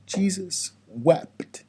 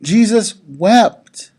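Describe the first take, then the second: First: Said in the usual way. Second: "Jesus wept" said slowly and louder, each word weighted; slow weighty stress. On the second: Shown as a demonstration. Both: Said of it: "I want you to understand this".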